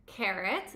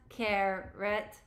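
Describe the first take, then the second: First: Said in the usual way. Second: Flat robotic syllables. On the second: Shown as a demonstration. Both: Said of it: "say it like a robot".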